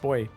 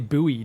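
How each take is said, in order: First: The word is pronounced exactly like 'boy'. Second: The word is pronounced as it is spelled. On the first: This is the British and Australian way of saying it. "It's just pronounced boy" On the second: This is the American way of saying it. "you guys say buoy ... You guys kind of pronounce it like it's spelt"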